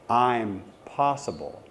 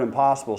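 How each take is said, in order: First: A short pause splits the word after the m. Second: The word is said smoothly without a break. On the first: The speaker is capable of it. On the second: Something cannot be done.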